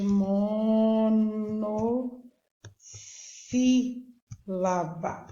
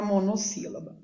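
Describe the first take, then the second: First: "monossílaba" hugely stretched, with long held syllables. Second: Said in the usual way. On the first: Shown as a demonstration. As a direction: draw "monossílaba" out very slowly, part by part. Teacher stretching the new term.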